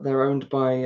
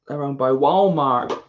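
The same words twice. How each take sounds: First: Said in the usual way. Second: Slow, louder amateur American accent; badly faked American accent on Walmart; attempted American accent. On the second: Shown as a demonstration. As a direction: draw out a clumsy American accent. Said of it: "that's why I don't do accents".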